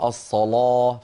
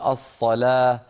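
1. اللام تُنطق ثقيلة ومفخمة. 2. اللام تُنطق خفيفة ورقيقة. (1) "فيفخمون اللام" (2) "فيرققون اللام"

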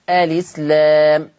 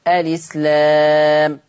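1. تبدأ الكلمة بحرف مد قبل اللام. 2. تبدأ الكلمة بحرف مد قبل اللام.

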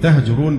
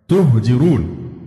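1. المقطع الأول فيه الحركة 'a'. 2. المقطع الأول فيه الحركة 'u'. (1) "بفتح الفاء" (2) "بضم التاء"

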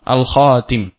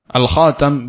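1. Vokal setelah t adalah 'i'. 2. Vokal setelah t adalah 'a'. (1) "wa kasriha, dan juga boleh di kasrah" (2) "bi fathi at-ta, ta-nya di fathah"

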